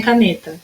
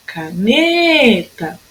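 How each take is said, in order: First: Said in the usual way. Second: "Caneta" called out with a very long ne; chamando, NE esticado. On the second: Shown as a demonstration. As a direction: stretch the ne of "Caneta" as if hailing it. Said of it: "Agora vamos chamar a palavrinha". ("Caneta" chamada com o ne bem comprido)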